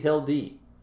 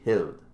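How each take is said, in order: First: The name ends with an added ee vowel sound. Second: The name ends on the d, no final vowel. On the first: "Or is it supposed to be Hildy?" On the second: "I don't think you're supposed to pronounce the e"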